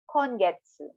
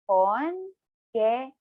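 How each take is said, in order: First: It is said at normal speed. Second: It is said slowly, syllable by syllable.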